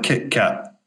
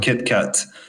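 First: The t sounds are replaced by glottal stops. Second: The t sounds are fully pronounced. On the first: "the glottal stop, where he doesn't actually pronounce everything" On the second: "it's not Kit Kat"

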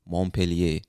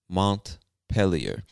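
First: It is pronounced in a French style. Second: It is pronounced in an English style. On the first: "this word looks French to me, so some people from Vermont might say Montpellier" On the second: "I believe that's the English-speaking pronunciation of the word"

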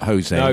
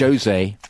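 First: The initial J is not sounded. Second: The initial J is clearly sounded. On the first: It treats the name as Spanish. The speaker calls it wrong. "It's not Jose, because he's Not Spanish" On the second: He is Portuguese, not Spanish. The speaker calls it right. "you pronounce the J"

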